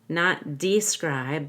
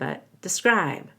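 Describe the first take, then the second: First: The first syllable has a full vowel. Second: The first syllable is reduced to a schwa. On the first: The speaker calls it wrong. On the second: The speaker calls it right. "reduced with a schwa"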